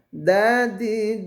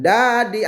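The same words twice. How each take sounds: First: The consonant is pronounced softly. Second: The consonant is pronounced harshly. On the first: The speaker calls it right. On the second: The speaker calls it wrong.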